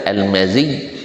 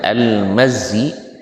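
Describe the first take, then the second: First: The middle consonant is doubled, followed by an i. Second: The middle consonant is short, with no following vowel. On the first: "dengan kasrah zal ianya bertasydid" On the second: "dengan sukun zal dan ianya tidak bertasydid"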